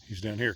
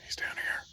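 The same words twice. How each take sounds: First: Said in the usual way. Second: Soft conspiratorial whisper; quiet whispered pointer; whispered tip. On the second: Real, not acted. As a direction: hush it so only the pet hears.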